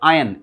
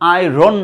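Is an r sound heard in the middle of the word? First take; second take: no; yes. First: No r sound is heard in the middle. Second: An r sound is heard in the middle. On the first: The speaker calls it right. "Exact pronunciation will be আয়ন" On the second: The speaker calls it wrong. "আয়রন না"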